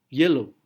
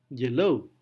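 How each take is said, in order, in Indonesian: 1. Tekanannya ada pada suku kata pertama. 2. Tekanannya ada pada suku kata kedua. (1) "Y-nya yang ditekankan" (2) "Tapi bisa juga"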